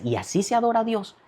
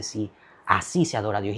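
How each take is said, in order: First: "así se adora a Dios" lifted high as a question. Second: "así se adora a Dios" stated low and soft; low, soft confirmation on "así se adora a Dios"; affirming. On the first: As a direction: ask "así se adora a Dios" in a high, puzzled tune, falling at the end. Retold policeman questions the worship. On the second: Retold woman answers the question. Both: Retold or imitated.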